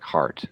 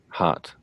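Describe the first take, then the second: First: It is said with a stronger American R. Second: It is said with a weak, non-rolled R.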